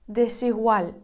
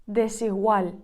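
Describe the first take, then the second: No difference in how they are said.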